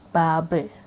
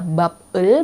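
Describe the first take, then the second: First: The B is linked onto the following vowel. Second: The final B is kept apart from the vowel. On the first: The speaker calls it right. "B yang di bawah dia naik ke atas" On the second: The speaker calls it wrong. "bukannya bab el"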